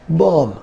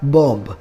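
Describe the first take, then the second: First: The final b sound is silent. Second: The final b sound is pronounced. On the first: The speaker calls it right. "the last B is silent here, and we should call this word like bomb" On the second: The speaker calls it wrong. "We often read this word like bomb"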